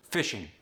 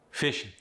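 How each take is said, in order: First: Said in the usual way. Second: "Fishing" said fishin', no G; Cajun G drop. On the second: Shown as a demonstration. Coach showing Cajun dropped G, "Fishing" as fishin'. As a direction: end "Fishing" on a bare N. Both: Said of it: "you drop the G".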